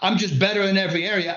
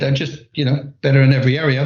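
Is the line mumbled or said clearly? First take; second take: clearly; mumbled. First: It is said clearly and pointedly. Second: It is mumbled quietly and thrown away.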